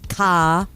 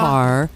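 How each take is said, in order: First: It is said in a Boston accent, r dropped. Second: It is said without a Boston accent, r pronounced.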